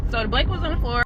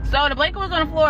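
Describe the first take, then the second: First: Said in the usual way. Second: Higher, louder and fast, driving the point home; emphatic repeat. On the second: Real, not acted. Storyteller repeating the spooky blanket detail for emphasis, excited. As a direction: hit it again like it matters.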